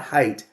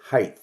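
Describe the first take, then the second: First: The word ends with a 't' sound. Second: The word ends with a 'th' sound. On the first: "not height" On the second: "height with an H at the end"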